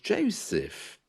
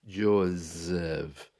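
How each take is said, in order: First: The middle consonant is a hissing S sound. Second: The middle consonant is a buzzing Z sound. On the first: The speaker calls it right. "My name is Joseph" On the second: The speaker calls it wrong. "with a Z"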